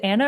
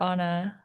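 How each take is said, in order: First: "Anna" with the first A as in "cat"; Anna with short A. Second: "Anna" with the first A as in "father"; Anna with open A. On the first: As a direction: say "Anna" as AN-uh, front vowel. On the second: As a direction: say "Anna" as AH-nuh, open back vowel. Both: Shown as a demonstration. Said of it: "is it Anna or Anna".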